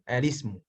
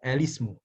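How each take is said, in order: The two takes are said the same way.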